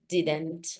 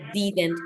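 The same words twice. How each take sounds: First: The vowel is a short, lax i sound. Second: The vowel is a tense Spanish-like ee sound. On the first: The speaker calls it right. "debe de ser didn't... casi entre una I y una E" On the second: The speaker calls it wrong. "no didn't, porque didn't me estás diciendo la I en español"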